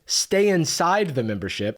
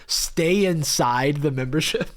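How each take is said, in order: First: Said in the usual way. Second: "Stay" drawn out, the line slow and pointed; stress on stay. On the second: Shown as a demonstration. Mocking the coach's odd ad wording, slow stress on "Stay". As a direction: lean on "Stay inside" slowly to mock the wording. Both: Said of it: "Insane wording".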